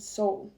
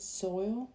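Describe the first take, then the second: First: The vowel is the long o sound, like 'bowl'. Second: The vowel is the oy sound, like 'boil'. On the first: "I've heard two people say um" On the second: "I have always pronounced it soil"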